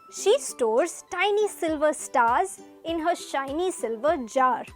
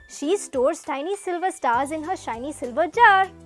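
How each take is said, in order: First: The sentence is read at a slow pace. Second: The sentence is read at a fast pace. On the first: "Let's read it slowly" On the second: "Now let's read it in a faster pace"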